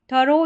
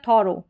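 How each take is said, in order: First: "थरो", opening vowel neutral, ending in o; first vowel as uh. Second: "थॉरो", opening vowel aw, ending in o; first vowel as aw. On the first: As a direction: say "थरो" with a short uh in the first syllable. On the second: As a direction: say "थॉरो" with a rounded aw in the first syllable. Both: Shown as a demonstration. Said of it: "थरो या थॉरो करके दोनों तरीके से".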